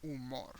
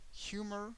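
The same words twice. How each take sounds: First: "humor" as oo-MOR, softer, silent h; Spanish "humor", last syllable stressed; Spanish pronunciation. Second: "Humor" as HYOO-mer, high and soft; English "Humor", first syllable stressed; English pronunciation. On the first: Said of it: "the H doesn't have a sound at all". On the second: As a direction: say "Humor" with the h sounded. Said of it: "the pronunciation is different". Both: Shown as a demonstration.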